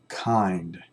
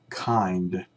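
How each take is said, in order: No difference in how they are said.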